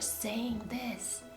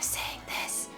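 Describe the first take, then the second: First: It is quiet but the voice sounds through. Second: It is a breathy whisper with no voice. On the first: The speaker calls it right. "make sure that you're using a stage whisper" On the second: The speaker calls it wrong. "instead of saying this"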